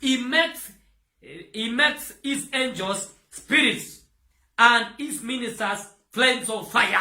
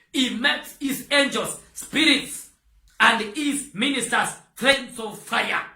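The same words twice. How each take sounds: No difference in how they are said.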